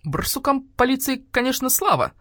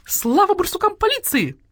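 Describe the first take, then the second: First: Grudging, high-pitched grumble; querulous concession; grumpy voice. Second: Very high squawking slogan; shrieked celebration; jubilant cheer. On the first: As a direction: grumble it like a peevish old doctor bird. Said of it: "послышался вдруг ворчливый голос грача-врача". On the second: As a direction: cry it out like cheering hens. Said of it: "завопили куры". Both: A narrator's reading.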